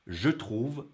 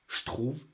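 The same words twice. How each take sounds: First: The je keeps a voiced zh sound. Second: The je becomes a voiceless sh sound. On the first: "if I say the sounds separately" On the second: "in everyday French"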